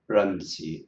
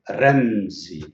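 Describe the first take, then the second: First: The first sound is an English-style r. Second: The first sound is a tongue-tip r against the palate. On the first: The speaker calls it wrong. "It's not Ramsey" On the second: The speaker calls it right. "It is Ramsey"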